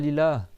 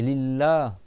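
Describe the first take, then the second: First: The L sound is short, not doubled. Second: The L sound is held long, doubled. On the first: The speaker calls it wrong. "c'est pas Lillah" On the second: The speaker calls it right. "C'est Lillah"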